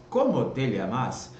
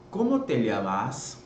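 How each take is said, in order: Both takes have the same delivery.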